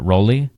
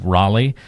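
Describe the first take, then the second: First: The name is said with an 'oh' sound, 'Rolly'. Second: The name is said the usual way, 'Raleigh'. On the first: "they're pronouncing it Rolly" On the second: "someone's saying Raleigh"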